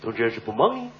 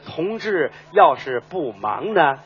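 First: It is said fast and run together. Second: It is said slowly and clearly.

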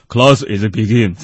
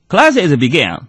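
First: It is spoken in a British English accent. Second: It is spoken in an American English accent. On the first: "英式英语是" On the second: "美式英语是"

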